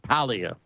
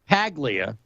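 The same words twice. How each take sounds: First: The G in the name is silent. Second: The G in the name is clearly sounded. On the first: The speaker calls it right. "I think the G's silent. I think it's like Paglia" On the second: The speaker calls it wrong. "it looks like, to my American eye, Paglia, because there's a P, P A G"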